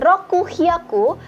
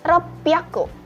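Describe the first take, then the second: First: The middle has a full 'ku' and an h sound. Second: The middle has a doubled p sound. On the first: The speaker calls it wrong. "Jadi bukan rokuhyaku" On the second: The speaker calls it right. "tetapi ropyaku"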